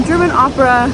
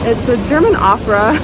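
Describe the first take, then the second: First: German said higher and louder, amused; amused echo with "German" punched; stress on German. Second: Said in the usual way. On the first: Real, not acted. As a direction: lean into "German" with a laughing repeat. Repeats German opera, laughing.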